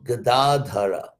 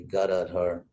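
First: The word ends with a final vowel sound. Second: The word ends on the consonant without a vowel. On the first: The speaker calls it right. "he's called Gadadhara" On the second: The speaker calls it wrong. "Please don't say Gadadhar"

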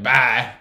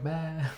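First: It is said in a harsh, aggressive way. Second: It is said in a soft, gentle way.

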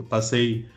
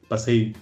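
The two takes are said the same way.

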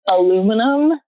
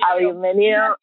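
First: It is pronounced the American way, with four syllables. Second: It is pronounced the British way, with five syllables. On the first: This is the form used in the United States. "convert back to American English was aluminum" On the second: This is the form the speaker learned first. "I always said aluminium"

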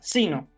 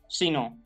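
First: The stress is on the first syllable. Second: The stress is on the last syllable. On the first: The speaker calls it right. "se pronuncia así como acabo de pronunciarla" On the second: The speaker calls it wrong. "y no sino"

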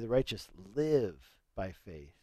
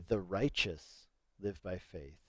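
First: The stress is on "live". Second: The stress is on "righteous".

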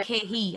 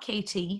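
First: The middle T sound is dropped. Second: The middle T sound is clearly pronounced. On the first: This is how people at home say it. "At home, I'm K-He. ... You just don't pronounce the T's" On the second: This is not how people at home say it. "I'm not K-T"

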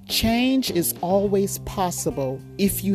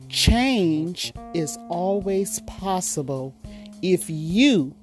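First: The word 'you' carries no special emphasis. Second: The word 'you' carries strong emphasis.

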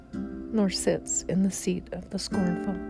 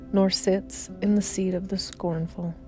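Both takes have the same delivery.

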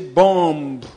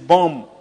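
First: A B sound is pronounced at the end. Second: No B sound is pronounced at the end. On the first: The speaker calls it wrong. "You don't say bomb" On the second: The speaker calls it right. "It is bomb"

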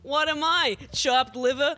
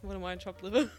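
First: It is said in a put-on old-style comedian voice. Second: It is said in a plain, natural voice.

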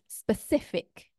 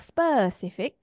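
First: The stress is on the second syllable. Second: The stress is on another syllable. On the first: The speaker calls it right. "second last syllable" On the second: The speaker calls it wrong. "not specific"

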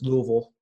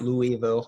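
First: The word is said with two syllables. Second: The word is said with three syllables. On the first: The speaker calls it right. "it is two syllables. It's Louisville" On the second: The speaker calls it wrong. "not Louisville"

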